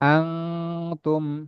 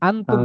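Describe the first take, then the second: First: The n is a long nasal hum through the nose. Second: The n is short and plain, with no nasal hum. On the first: The speaker calls it right. "একালি পরিমাণ গুণনাটা ধরে রাখতে হবে নাকের ভিতরে।" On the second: The speaker calls it wrong. "আনতুম পড়বেন না"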